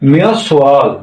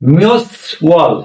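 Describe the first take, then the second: First: The final consonant carries over into the next syllable. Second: The two syllables are said separately, without linking.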